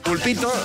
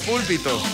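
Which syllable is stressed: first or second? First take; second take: second; first. First: The stress is on the second syllable. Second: The stress is on the first syllable. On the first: A small octopus. The speaker calls it right. "en vez de decir pulpito" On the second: The raised stand where a priest preaches. The speaker calls it wrong. "como la acentuación es distinta"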